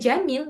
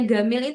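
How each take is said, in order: First: The word starts with a j sound. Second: The word starts with a hard g sound. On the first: This is the standard form. "ya gamil itu ya jamil" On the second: This is the Egyptian colloquial form. "Amiyah Mesir itu diganti jadi gol, gamil"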